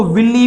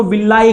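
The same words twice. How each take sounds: First: विल्ली ending in a long "ee"; विल्ली with final "ee", not "eye"; alternative pronunciation. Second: विल्लाई ending in an "eye" sound; विल्लाई with final "eye", not "ee"; alternative pronunciation. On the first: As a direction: say विल्ली as "VIL-lee". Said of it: "कुछ लोग इसको विल्ली भी कहते हैं". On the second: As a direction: say विल्लाई as "vil-LAI". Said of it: "कुछ लोग इसको विल्लाई कहते हैं". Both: Shown as a demonstration.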